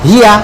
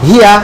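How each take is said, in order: The two takes are said the same way.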